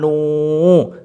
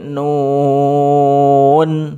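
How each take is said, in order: First: The word ends on the vowel. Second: The word ends with an n sound. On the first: The speaker calls it wrong. "Jangan nu" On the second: The speaker calls it right. "tapi nun. Belakangnya ada nun lagi"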